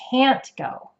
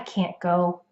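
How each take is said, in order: First: The T in can't is clearly heard. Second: The T in can't is dropped. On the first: "stretch out the vowel sound even longer in the word can't, and we'll make sure you can hear that T sound" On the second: "Could you hear how that T sound isn't really in there?"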